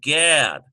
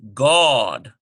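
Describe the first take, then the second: First: The vowel is not an 'aw' sound. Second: The vowel is an 'aw' sound.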